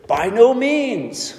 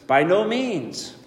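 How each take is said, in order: First: Slow, stretched "By no means" with a punched "no"; emphatic refusal. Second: "by no means" repeated quieter and a little slow; softer echo. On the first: Paul answering the sinful question, emphatic and slow. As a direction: hit "no" hard and slow it down. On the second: Paul repeating his answer, quieter and fading. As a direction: let the second "by no means" fall away. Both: Real, not acted. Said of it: "It is extremely emphatic".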